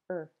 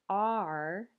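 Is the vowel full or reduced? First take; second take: reduced; full. First: The vowel is a reduced schwa. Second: The vowel is a full, clear vowel. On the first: "you might just hear er" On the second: "Instead of are"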